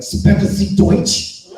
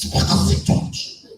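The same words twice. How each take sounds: First: Slow, loud hammed-up German; exaggerated fake German accent; mock German. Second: Slow whispery German attempt; hammed-up German try, breathier; mock German again. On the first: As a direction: bark it like a bad German movie. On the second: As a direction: fake German accent, airy. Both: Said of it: "I gave him the best".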